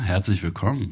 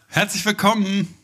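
First: It is said in a cool, laid-back manner. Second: It is said in his usual greeting manner.

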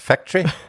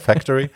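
First: It is said in a put-on British accent. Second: It is said in a plain, ordinary accent. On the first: "sie hat immer Factory gesagt ... Ist immer so fake British da drin" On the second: "anstatt Factory"

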